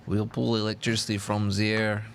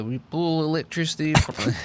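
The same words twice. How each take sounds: First: Put-on Serbian accent broken by laughter; laughing Serbian accent. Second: A hint of Serbian accent; lightly voiced Serbian Tesla. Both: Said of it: "Serbian accent?".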